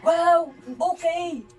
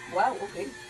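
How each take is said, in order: First: It sounds supportive and enthusiastic. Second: It sounds disappointed and let down.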